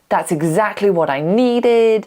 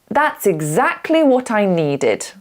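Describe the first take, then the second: First: The voice rises at the end. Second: The voice falls at the end. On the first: The speaker calls it wrong. "So we never really go" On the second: The speaker calls it right. "We like to end on a down"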